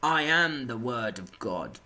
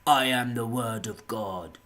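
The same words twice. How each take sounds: First: Proclaiming zealot. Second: Slow, loud self-declared prophet; earnest proclamation. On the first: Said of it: "comes to me and is like". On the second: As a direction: proclaim it slowly, in total earnest. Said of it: "not even with any ounce of fucking, uh, absurdity about any of it. Genuinely like". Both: Retold or imitated.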